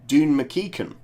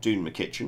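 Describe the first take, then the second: First: The surname has a k sound in the middle. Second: The surname has a ch sound in the middle. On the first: The speaker calls it right. "my notes tell me it's actually" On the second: The speaker calls it wrong. "not ... I've been saying that wrong for thirty years"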